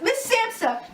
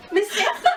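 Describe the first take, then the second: First: Panicked shout. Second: Laughing shout. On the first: Reporter calls out. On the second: Reporter calls out laughing. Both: Acted.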